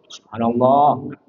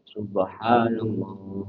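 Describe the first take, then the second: First: It is said with an irritated, reproachful intonation. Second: It is said calmly, as a devout recitation. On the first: It is meant to correct someone's mistake. The speaker calls it wrong. "Tapi kalau niat-niat kan gimana? Intonasinya" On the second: It is meant as praise of God. The speaker calls it right. "kalau kita zikir gimana bacanya?"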